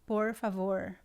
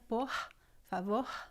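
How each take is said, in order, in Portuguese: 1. O R é curvado para trás, como o R do inglês. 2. O R é feito na garganta. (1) "R retroflexo, ... é similar ao R do inglês" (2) "Pode ser na garganta"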